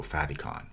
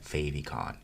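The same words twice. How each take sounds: First: "favicon" with a short A in the first syllable; short-A pronunciation. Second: "favicon" with a long A in the first syllable; long-A pronunciation. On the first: Instructor offering the other way, "favicon" pronounced FAV-ee-con. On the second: Instructor unsure of the right way, "favicon" pronounced FAY-vee-con. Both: Shown as a demonstration. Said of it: "what is the right way to pronounce it".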